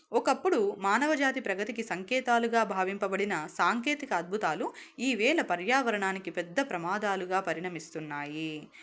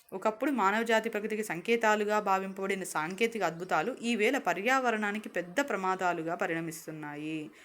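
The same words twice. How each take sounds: The two takes are said the same way.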